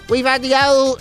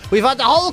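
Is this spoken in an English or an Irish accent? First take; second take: English; Irish. First: It is spoken in a put-on English accent. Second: It is spoken in a natural Irish accent. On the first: "[name]'s English accent?" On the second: "I'll do it in my own accent"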